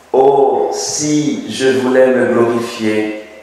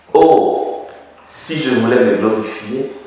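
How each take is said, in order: Both takes have the same delivery.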